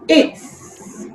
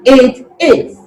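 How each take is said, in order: First: The two words are joined into one syllable. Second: Both words are said separately in full. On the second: "Uncontracted form"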